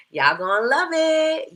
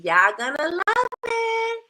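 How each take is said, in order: First: Said in the usual way. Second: Much higher and slower, sung out; high sing-song. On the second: Shown as a demonstration. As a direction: lift it high and stretch it. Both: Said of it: "said twice, second higher".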